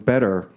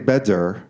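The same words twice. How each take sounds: First: The middle consonant is a quick, soft tap. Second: The middle consonant is a full D sound. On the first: "It's some intermediate sound" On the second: "it's not a D. We don't say better, like in David"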